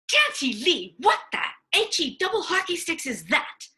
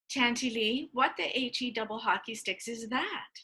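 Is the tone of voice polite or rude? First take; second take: rude; polite. First: It is asked in a rude tone. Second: It is asked in a polite tone.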